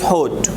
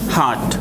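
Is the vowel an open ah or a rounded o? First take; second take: rounded o; open ah. First: The vowel is a rounded o sound. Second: The vowel is an open ah sound. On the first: The speaker calls it wrong. "If we do not know phonetic, we needed to pronounce hot" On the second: The speaker calls it right. "the phonetic taught us to pronounce this word like this"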